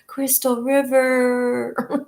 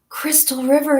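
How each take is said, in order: First: It is said in a low purring voice. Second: It is said in a normal reading voice.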